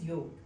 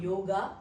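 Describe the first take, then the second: First: The final vowel is silent. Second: The final vowel is pronounced. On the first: The speaker calls it right. "but it is yoga" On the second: The speaker calls it wrong. "that's why the people are saying yoga"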